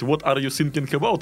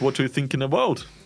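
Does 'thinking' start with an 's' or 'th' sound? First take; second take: s; th. First: Thinking is said with an s sound, like sinking. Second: Thinking is said with a th sound. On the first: It sounds like 'sinking', so the meaning changes. The speaker calls it wrong. "у вас будет вот так же" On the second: It means 'thinking', as intended. The speaker calls it right. "Совсем другое дело"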